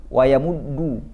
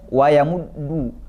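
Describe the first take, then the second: Both takes have the same delivery.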